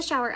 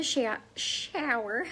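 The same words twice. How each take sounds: First: Said in the usual way. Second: Southern twang on SHOWER, vowel drawn out; thick-ish Tennessee shower; Tennessee accent. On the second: Real, not acted. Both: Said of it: "how do you like that accent".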